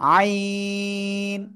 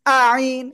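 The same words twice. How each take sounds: First: The letter name is said from the throat, drawn long. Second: The letter name is said plainly, short, without throat. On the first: The speaker calls it right. "গলার মধ্যখান থেকে চার আলিফ টানে উচ্চারণ করতে হবে" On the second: The speaker calls it wrong. "অনেকে আবার উচ্চারণ করে আইন, আইন, এভাবে পড়া যাবে না কিন্তু"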